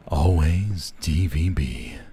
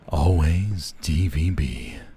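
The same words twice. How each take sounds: First: It is said in a sensual, seductive way. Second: It is said in a sensual, seductive way.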